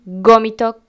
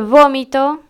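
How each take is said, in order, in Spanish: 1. La palabra empieza con un sonido G. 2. La palabra empieza con un sonido V. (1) "muchos dicen gómito con G" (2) "en vez de vómito"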